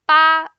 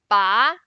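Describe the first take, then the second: First: The pitch stays high and level. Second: The pitch rises from middle to high. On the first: It means the number eight. "the first one" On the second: It means to pull. "The second one"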